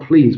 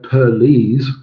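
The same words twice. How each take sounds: First: The word is said as one syllable. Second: The word is stretched into two syllables. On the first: "not please" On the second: "if we break it up ... into two ... syllables"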